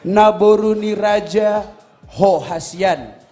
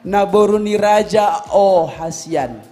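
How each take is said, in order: First: An h sound begins the word before Hasian. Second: No h sound begins the word before Hasian. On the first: The speaker calls it right. "Yang kedua juga tadi ada Naboruni Raja Ho Hasian" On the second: The speaker calls it wrong. "Tapi yang kau ucapkan"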